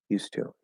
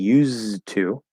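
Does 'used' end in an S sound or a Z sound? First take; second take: S; Z. First: It has an S sound and no D. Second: It has a Z sound and a D. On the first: The speaker calls it right. "I'm actually making an S sound instead of a Z sound. Uh, the D is disappearing" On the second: The speaker calls it wrong. "notice I'm not saying used to"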